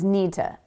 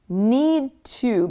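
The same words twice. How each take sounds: First: The words blend together in a reduced form. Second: Both words are said fully and separately.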